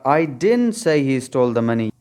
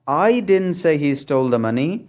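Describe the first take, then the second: First: The stress falls on the word didn't. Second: The stress falls on the word I. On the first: The speaker flatly denies saying it. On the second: Someone else said it, not the speaker.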